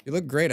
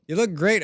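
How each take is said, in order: First: Said in the usual way. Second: Higher, louder, rising on look; really mean it this time, lift look; repeated compliment pressed home; emphatic compliment. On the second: Real, not acted. Complimenting a viewer, said twice.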